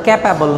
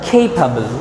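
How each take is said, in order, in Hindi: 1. पहला स्वर छोटा है। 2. पहला स्वर लंबा है। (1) "এটার উচ্চারণ ক্যাপাবল না" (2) "এটার উচ্চারণ খেইপাবল"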